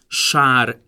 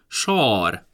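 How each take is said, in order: First: The long vowel is said with unrounded lips. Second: The long vowel is said with rounded lips. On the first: This is the standard pronunciation. "köznyelvi A" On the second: This is the Palóc dialect pronunciation. "hosszú, labiális, tehát ajakkerekítéses A hang"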